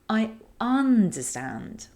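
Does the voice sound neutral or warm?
warm. It is warm, with the vowels stretched.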